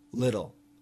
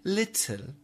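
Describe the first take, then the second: First: The T in the middle is a soft, quick flap. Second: The T in the middle is a crisp, clear T. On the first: This is how Americans say it. "We say little" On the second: This is not how Americans say it. "So we don't say little"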